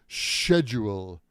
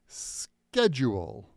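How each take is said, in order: First: The word begins with an sh sound. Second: The word begins with an sk sound. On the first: "in British English they say schedule, like shave or the shed" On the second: "Americans say schedule"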